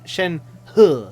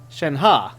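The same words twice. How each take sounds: First: Shen He said with a final "he" sound, falling; pronounced Shen He. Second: Shen Ha said with a final open "ha"; pronounced Shen Ha. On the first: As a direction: Shen He ending on "he", not "ha". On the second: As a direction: Shen Ha ending on a broad "ha" sound. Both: Shown as a demonstration. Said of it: "the other one said Shen Ha".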